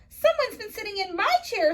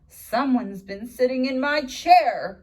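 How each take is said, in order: First: It is said in a high, squeaky voice. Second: It is said in a low, grumbling voice.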